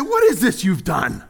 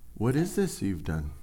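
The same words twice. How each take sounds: First: It is said as a sharp, dramatic accusation. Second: It is said as a calm, searching question. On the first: The speaker is scolding someone over what happened. The speaker calls it wrong. "That question sounds like something we've heard on a sitcom or a drama TV series" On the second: The speaker wants them to consider the consequences. The speaker calls it right. "Asking her and him to think"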